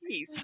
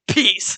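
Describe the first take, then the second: First: It is said in a sleepy, drawn-out imitation. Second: It is said in a normal, everyday way.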